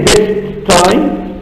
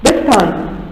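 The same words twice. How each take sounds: First: "best time" slow, both T sounds separate; unlinked double T. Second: "best time" joined with only one T; linked single T. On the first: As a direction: release the T of "best", then say "time". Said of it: "Do we say best time? Difficult". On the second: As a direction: run "best time" together as "bes-time". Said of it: "We don't pronounce it two times". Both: Shown as a demonstration.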